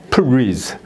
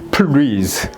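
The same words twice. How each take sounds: Both takes have the same delivery.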